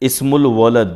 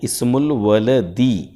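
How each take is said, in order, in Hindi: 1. आखिरी शब्द व्यंजन d पर खत्म होता है। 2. आखिरी शब्द 'ee' स्वर पर खत्म होता है। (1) "इस्मुल वलद नहीं" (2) "जब तक आप दाल पे जेर नहीं देंगे ये का का माना नहीं आएगा"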